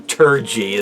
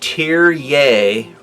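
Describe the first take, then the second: First: The name starts with a 'tur' sound. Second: The name starts with a 'tear' sound. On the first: It is read the way it looks. The speaker calls it wrong. "Not, not, not Tur- Turgey. That's what it looks like" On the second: It is said the way it should be. The speaker calls it right. "Tear, like a tear. Tear Yay Rip Doll is uh, the correct pronunciation"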